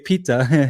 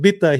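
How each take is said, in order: First: The word begins with a P sound. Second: The word begins with a B sound. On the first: "He didn't say "pita" because he can't say "p."" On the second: "he said "bitta.""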